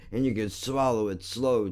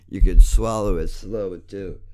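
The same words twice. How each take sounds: First: Said in the usual way. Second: Yelled taunt. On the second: Real, not acted. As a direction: shout the taunt the second time. Repeats the insult louder.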